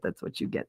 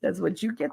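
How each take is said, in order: First: Whispered, fading out; softer whispered echo of the phrase. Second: Said in the usual way. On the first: Real, not acted. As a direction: let it trail off into a whisper.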